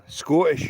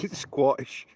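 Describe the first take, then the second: First: Scottish said slowly and cleanly as skottish; slow careful Scottish, no w; proper Scottish. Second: Scottish said as skwottish, w slipped in after the s; jokey skwottish with an extra w; mock Scottish. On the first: Telling chat how to say it, slow careful Scottish. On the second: Telling chat how to say it, jokey skwottish. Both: Shown as a demonstration. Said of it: "If you wanna say Scottish".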